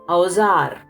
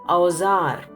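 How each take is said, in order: Both takes have the same delivery.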